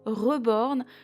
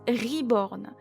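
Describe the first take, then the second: First: The word is said the French way. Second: The word is said the English way. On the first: The speaker calls it wrong. "et non reborn comme je l'entends souvent provenant des françaises" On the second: The speaker calls it right. "il se prononce reborn"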